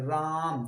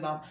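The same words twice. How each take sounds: First: The vowel is stretched out long. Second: The word is said at normal length.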